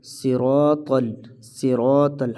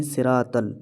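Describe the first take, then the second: First: "صراط ال" with full, thick s, r and t; heavy letters. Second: "صراط ال" with light, thin r and t; thin letters. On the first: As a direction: round out "صراط ال" as si-rawt-al. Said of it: "درست پڑھنے کا طریقہ ہے". ("صراط ال" موٹے حروف کے ساتھ) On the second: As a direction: flatten "صراط ال" to si-raat-al. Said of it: "ہم اس کو باریک پڑھتے ہیں". ("صراط ال" باریک کر کے) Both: Shown as a demonstration.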